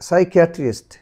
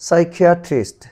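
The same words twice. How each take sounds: No difference in how they are said.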